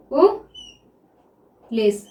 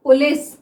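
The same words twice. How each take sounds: First: "police" very slowly, long pause after "पु"; syllable by syllable. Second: Said in the usual way. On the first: Shown as a demonstration. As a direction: dictate "police" as "पु", pause, "लिस". Sounds out word while writing.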